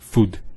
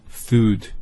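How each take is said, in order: First: The vowel is short. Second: The vowel is long. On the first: The speaker calls it wrong. "not food" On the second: The speaker calls it right.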